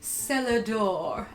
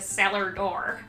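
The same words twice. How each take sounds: First: It is said in a soft, flowing, pretty way. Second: It is said in a flat, harsher, plainer way. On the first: The speaker calls it right. "it sounds much prettier if you pronounce it" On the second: The speaker calls it wrong. "as opposed to"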